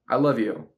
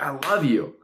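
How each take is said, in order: First: It is said flatly, without feeling. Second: It is said warmly, with strong feeling. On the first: The words carry little real emotion. The speaker calls it wrong. "she's not really going to feel it" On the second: The words carry real emotion. The speaker calls it right. "then she's going to feel that a lot more"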